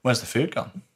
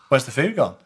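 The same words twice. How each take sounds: First: Puzzled first asking of "Where's the food gone?"; casual retold question. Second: "Where's the food gone?" pitched higher, pressing on FOOD; insistent repeated question. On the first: Player asking crew about missing food, casual question. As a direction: ask "Where's the food gone?" evenly, without pushing. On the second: Retold or imitated. Player pressing crew for missing food, insistent question. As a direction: push "food" up, demanding an answer.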